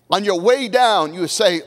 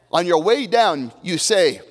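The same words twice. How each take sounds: The two takes are said the same way.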